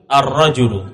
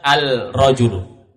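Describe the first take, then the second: First: The article merges into a doubled r sound. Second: The article keeps a clear l sound. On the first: The speaker calls it right. "Langsung masuk tasydid kepada huruf ra" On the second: The speaker calls it wrong. "tidak dibaca al-rajulu"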